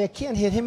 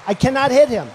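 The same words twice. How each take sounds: First: Said in the usual way. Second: "cannot" said in full and louder; emphatic cannot. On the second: Real, not acted. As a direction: lean hard on "cannot". Repeats he can't attack Carson.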